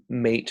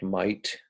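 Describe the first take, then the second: First: Said in the usual way. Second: Mate said like 'might'; broad Aussie might for mate; Australian vowel shift. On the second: Shown as a demonstration. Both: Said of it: "frequently sounds like might".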